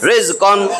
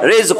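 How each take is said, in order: First: The word ends with a short un sound. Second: The word ends abruptly on the q sound. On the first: The reader continues without stopping. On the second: The reader stops on this word.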